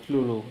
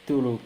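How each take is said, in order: Both takes have the same delivery.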